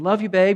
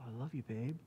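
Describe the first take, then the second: First: It is said as a quick, casual greeting. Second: It is said slowly with deep, earnest feeling.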